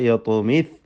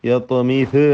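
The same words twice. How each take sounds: First: The final z ends with no following vowel. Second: The final z is followed by a short vowel. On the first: The speaker calls it right. "സാഇൻ്റെ സുക്കൂന് ചലിച്ചു പോകരുത്" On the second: The speaker calls it wrong. "അല്ല"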